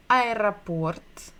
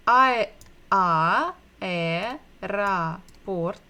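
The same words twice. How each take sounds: First: Said in the usual way. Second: "I, a, e, ra, port" broken into slow separate syllables. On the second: Shown as a demonstration. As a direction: sound out aeroport piece by piece, pausing between. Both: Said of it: "aeroport begins with bukva A".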